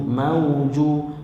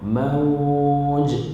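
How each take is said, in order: First: The word ends with a short vowel. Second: The word ends with a strong bouncing echo. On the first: The reading continues into the next word. "kalau kita sambung dia hanya jadi mad lina" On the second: The reading stops at this word. "bila kita berhenti situ berlakulah qalqalah kubra"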